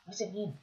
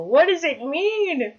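First: Said in the usual way. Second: High, loud, drawn-out wonder; double rainbow impression. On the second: Player quoting the double rainbow man, awestruck wail. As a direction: wail it slowly in overwhelmed awe. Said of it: "It's like a double rainbow".

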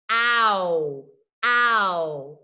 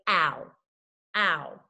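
First: Ow stretched, mouth gliding from a to u; loud slow ow with a visible glide. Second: Ow said short as in a word; just say ow plainly; quick ow. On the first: Teacher showing the ow glide to her students. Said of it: "You see how my mouth changes?". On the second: Teacher showing ow as spoken in a word. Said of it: "when we say it, we just say". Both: Shown as a demonstration.

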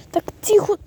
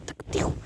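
First: Said in the usual way. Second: Так тихо said much softer; hushed. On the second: Shown as a demonstration. Shushing the others, very softly. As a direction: drop так тихо almost to nothing.

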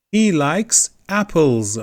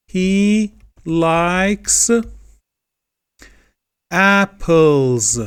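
First: Said in the usual way. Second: He likes apples, slow, with a pause before a loud apples; stressed he likes apples. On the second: Shown as a demonstration. Teacher asking students to notice the -s, stressing apples. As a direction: lean on apples after a pause. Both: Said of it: "Dikkat edelim".

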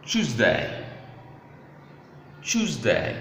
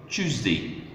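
First: "Tuesday" with a clear "day" ending; full-vowel pronunciation. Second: "Tuesday" said as "CHOOZ-dee"; reduced-ending pronunciation. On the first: Teacher showing the class how to pronounce days, clear full "day". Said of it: "how to pronounce days of the week". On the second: Teacher offering learners another pronunciation, short "dee" ending. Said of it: "may also be pronounced as". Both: Shown as a demonstration.

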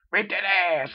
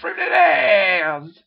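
First: Higher, louder rallying chant; a punchy rallying chant; chanted cheer. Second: Chanted, long, slow, loud drawn-out scream; chanted, scream it out, stretching every word; an all-out drawn-out screaming chant. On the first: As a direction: chant it like a fan. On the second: Chanting cheer. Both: Acted.

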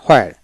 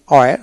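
First: হোয়ার with an audible H at the start; H pronounced. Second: ওয়্যার starting on the glide, no H; silent H. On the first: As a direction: say হোয়ার with the H sounded. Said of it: "আবার হোয়াইল উচ্চারিত হয়". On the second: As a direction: say ওয়্যার with the H dropped. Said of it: "এইচ এর উচ্চারণ হয় না". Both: Shown as a demonstration.

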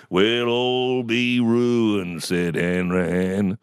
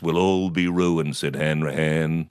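First: Very slow, drawn-out doom-laden recital; mum's recitation voice. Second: Said in the usual way. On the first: Retold or imitated. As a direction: stretch every word like a theatrical prophet of ruin. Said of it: "putting on The Voice". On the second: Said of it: "Mum used to love putting on The Voice".

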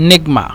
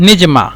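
First: নেগমা with a hard g in place of j; teacher's g-variant of নেগমা; dialect pronunciation. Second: Teacher's j-variant of নিজমা; dialect pronunciation. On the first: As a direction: sound a hard g inside নেগমা. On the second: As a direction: say নিজমা with j, not g. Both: Shown as a demonstration. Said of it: "অথবা".

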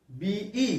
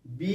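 First: বিই with the ই vowel drawn out long at the end; stretched letter B. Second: Said in the usual way. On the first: Shown as a demonstration. Teacher showing pupils the ই hidden in বিই, stretched. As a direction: draw out বিই so the ই after the বি is heard. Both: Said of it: "উচ্চারণ করো তো".

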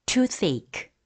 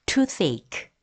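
The two takes are said the same way.

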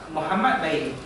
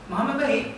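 First: Said in the usual way. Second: "Muhammad baik" lifted high, then falling; changed intonation. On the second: Shown as a demonstration. Teacher showing sentence intonation, "Muhammad baik" in a high arching tune. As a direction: raise the pitch right through "Muhammad baik". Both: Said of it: "intonasi ayat tu".

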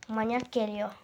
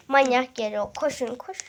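First: Said in the usual way. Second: Louder, urgent call; loud alarmed warning. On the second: Real, not acted. Boy warning his viewers the brother is coming, loud. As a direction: warn them he's coming.

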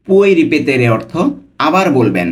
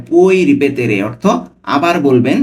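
The two takes are said the same way.

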